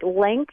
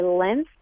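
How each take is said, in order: First: LENGTH with the G sounded, "lengkth"; standard pronunciation. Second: LENGTH as "lenth", the G dropped; dropped-G pronunciation. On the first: Shown as a demonstration. Word expert compares the family of words, LENGTH with its NG sounded. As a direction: keep the NG in LENGTH. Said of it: "the G gets dropped". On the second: Retold or imitated. Word expert quotes what some people say, LENGTH as "lenth". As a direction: say LENGTH with a plain N before TH. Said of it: "Some people say length".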